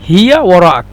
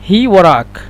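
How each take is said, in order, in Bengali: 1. প্রথম শব্দে দুটি পূর্ণ শব্দাংশ আছে। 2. প্রথম শব্দটি ছোট হয়ে এক শব্দাংশে বলা হয়েছে। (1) "আর আমরা মিশরে বলি হিয়া ওরাক" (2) "শুধু এখানে বলে হি ওরাক"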